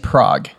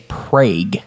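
First: Prague is said with the standard pronunciation. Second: Prague is said with the Oklahoma local pronunciation. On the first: The speaker calls it right. "so you say Prague" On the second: The speaker calls it wrong. "In Oklahoma, they say Prague"

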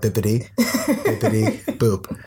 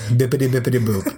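First: The phrase is said more slowly. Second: The phrase is said at a normal pace.

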